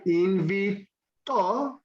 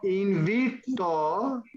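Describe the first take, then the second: First: The stress is on the last syllable. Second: The stress is on the middle syllable.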